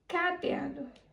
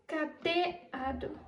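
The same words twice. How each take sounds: First: The stress is on the first syllable. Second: The stress is on the second syllable. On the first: "se a sílaba tônica mais forte fosse o K" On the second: "Se a sílaba tônica fosse o T"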